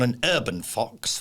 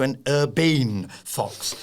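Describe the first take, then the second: First: Said in the usual way. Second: "urbane" with a long, stretched "bane"; "urbane" said as ur-BANE, mock-refined; posh pronunciation. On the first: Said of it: "turned myself into an urbane fox". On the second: Shown as a demonstration. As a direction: lean grandly on the second syllable of "urbane". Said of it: "which is slightly not posh".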